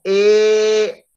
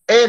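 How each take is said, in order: First: E held long and higher; drawn-out E. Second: E as one pure vowel; just "E", nothing after it; plain short E. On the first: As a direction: stretch the vowel "E" out, sustained. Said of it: "Pero no". (E alargada, sostenida y más aguda) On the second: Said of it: "E nomás". (E sola, vocal simple) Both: Shown as a demonstration.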